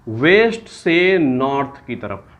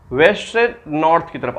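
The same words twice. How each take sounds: First: waste से north की तरफ spelled out slowly, waste stressed; slow teacher emphasis. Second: Said in the usual way. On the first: Shown as a demonstration. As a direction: drag out waste से north word by word for the class. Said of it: "उल्टा पढ़ेंगे". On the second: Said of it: "restates the rule".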